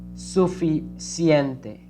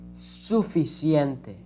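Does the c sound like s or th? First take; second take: s; s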